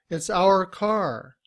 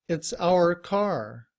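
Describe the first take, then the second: Both takes have the same delivery.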